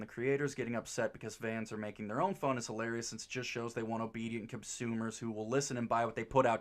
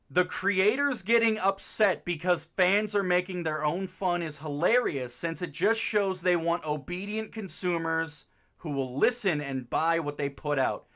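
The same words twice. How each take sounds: First: It is mumbled quietly to himself. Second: It is read out loud clearly.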